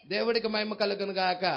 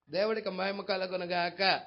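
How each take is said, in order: Both takes have the same delivery.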